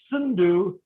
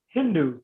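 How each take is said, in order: First: Sindhu begun with a clear S sound; Sindhu, hissed S onset as the original form; intended S pronunciation. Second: Hindu begun with an H sound; Hindu, H onset standing in for S; S replaced by H. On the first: Shown as a demonstration. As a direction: say Sindhu with S at the front, not H. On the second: Retold or imitated. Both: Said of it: "They can't pronounce the letter S".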